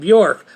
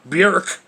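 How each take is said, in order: First: The vowel is not an 'irk' sound. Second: The vowel is an 'irk' sound. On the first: The speaker calls it wrong. "have been saying [name]" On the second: The speaker calls it right. "try to say it right, Björk. With an irk sound"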